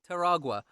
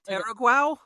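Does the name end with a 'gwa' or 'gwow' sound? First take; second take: gwa; gwow. First: The name ends with a 'gwa' sound. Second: The name ends with a 'gwow' sound. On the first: The speaker calls it right. "That sounds better than Taraguao" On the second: The speaker calls it wrong. "help me with pronunciations here"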